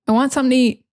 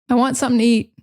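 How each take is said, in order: Both takes have the same delivery.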